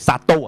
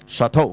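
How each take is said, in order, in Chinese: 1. 这个词是用粤语风格发音的。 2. 这个词是用法语风格发音的。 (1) "我哋好核突咁廣東音咧叫chateau" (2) "佢即係法文應該係"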